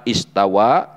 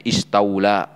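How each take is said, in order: First: Istawa with a clear w, as the original word; correct reading. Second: Istaula with an inserted l; altered reading. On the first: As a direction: say istawa, stressing the final wa. (bacaan istawa yang benar) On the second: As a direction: say istaula, the changed reading with lam. (bacaan istaula yang diubah) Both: Shown as a demonstration. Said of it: "diganti bacanya istaula".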